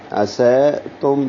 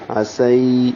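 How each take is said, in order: First: عسیتم with a level "ae" in place of the ay glide, asae-tum; wrong majhool vowel. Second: عسی with a clear drawn "ay" glide, asay; soft leen ya. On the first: Teacher showing the mistake, عسیتم with unglided "ae". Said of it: "یہ مجہول ہے". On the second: Teacher showing the correct reading, عسی as a gliding "asay". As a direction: pull lips back and glide softly into the y of عسی. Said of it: "ہونٹ پیچھے کی جانب کھینچیں گے". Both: Shown as a demonstration.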